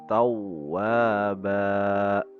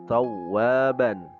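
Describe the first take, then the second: First: The word ends with a long vowel. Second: The word ends with an n sound. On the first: "menjadi bacaannya tawwaba karena bertemu dengan mad iwad" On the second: "pada kalimah tawwaban"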